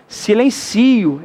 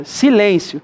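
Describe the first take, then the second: First: "Silencio" bem devagar, com tônica em ci, si-len-CI-o; verbo silencio. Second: "silêncio" devagar, com acento em lên, si-LÊN-cio; substantivo silêncio. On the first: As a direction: stress on ci in "Silencio", slowly. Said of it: "É o verbo silenciar". ("Silencio" do verbo, tônica em ci, devagar) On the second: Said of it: "É silêncio que tá escrito". ("silêncio" dito devagar com tônica em lên) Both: Shown as a demonstration.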